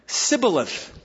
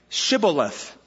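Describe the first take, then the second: First: The word begins with an 's' sound. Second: The word begins with a 'sh' sound. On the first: The speaker is an Ephraimite. The speaker calls it wrong. "for he couldn't pronounce it right" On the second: The speaker is a Gileadite. The speaker calls it right. "then say"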